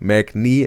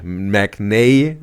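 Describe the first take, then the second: First: The last vowel sounds like ee. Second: The last vowel sounds like ay. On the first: "Mac knee wrong" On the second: "Mac nay wrong"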